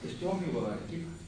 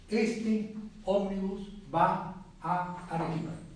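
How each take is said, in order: First: The adjacent vowels merge into one sound. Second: The adjacent vowels are pronounced separately. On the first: The speaker calls it right. "Va a Arequipa, una sola" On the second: The speaker calls it wrong. "nadie pronuncia en castellano"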